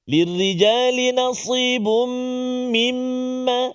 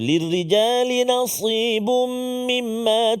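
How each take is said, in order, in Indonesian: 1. M sengau yang ganda dibaca panjang. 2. M sengau yang ganda dibaca pendek.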